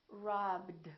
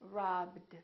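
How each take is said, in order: No difference in how they are said.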